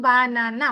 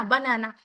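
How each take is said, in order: First: banana broken into three clear beats; banana said in three measured parts; split into syllables. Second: Said in the usual way. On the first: Shown as a demonstration. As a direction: separate each syllable of banana with a tiny gap. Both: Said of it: "তিন ভাগে উচ্চারণ করতে পারি".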